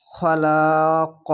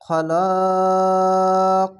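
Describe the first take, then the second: First: খলাক said slowly with a bouncing stop on the final ক; খলাক recited slowly with a firm qalqala echo on the last ক. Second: খলাক chanted very slowly, the vowel held for three alif lengths; খলাক intoned with a long melodic hold before the final ক; three alif stretch. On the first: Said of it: "কলকলা হবে". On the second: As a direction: draw out খলাক in a slow recitation chant. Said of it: "তিন আলিফ টেনে পড়বেন". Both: Shown as a demonstration.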